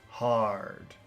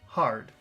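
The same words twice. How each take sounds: First: The word is said with strong, focused emphasis. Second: The word is said plainly, without extra emphasis. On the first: "Focus hard" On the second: "Normal hard"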